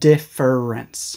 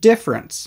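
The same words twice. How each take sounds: First: The word is said in three syllables. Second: The word is said in two syllables. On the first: "You do not need to say different or difference" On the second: "usually pronounced as just two syllables"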